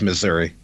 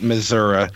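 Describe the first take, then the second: First: The name is said the big-city way. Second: The name is said the rural farmers' way. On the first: The speaker is from one of the cities. "if you're Kansas City or St. Louis, it's Missouri" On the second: The speaker is from the farming countryside. "The farmers pronounce it Missouri"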